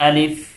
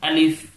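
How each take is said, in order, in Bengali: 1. শব্দটি f ধ্বনি দিয়ে শেষ হয়। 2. শব্দটি f ধ্বনি দিয়ে শেষ হয়।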